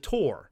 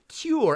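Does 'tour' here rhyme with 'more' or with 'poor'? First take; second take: more; poor. First: The vowel sounds like 'tor', rhyming with more. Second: The vowel sounds like 'toor', rhyming with poor. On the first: This is a regional Maryland pronunciation. "because I would have said Jerry and Alex go on the tour" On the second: This is how the other person says it. "You pronounce it tour"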